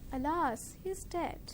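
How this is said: It is said in a low, subdued pitch. The speaker feels sorrow about the death. The speaker calls it right. "Lower your pitch whenever you feel sad"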